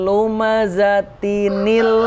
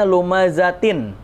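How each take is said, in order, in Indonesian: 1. Akhirannya tersambung dengan bunyi -nil tambahan. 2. Akhirannya berhenti pada bunyi sengau -in yang biasa. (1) "nunnya dihidupkan. Seolah-olah ada nun tambahan" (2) "kan harusnya lumazatin"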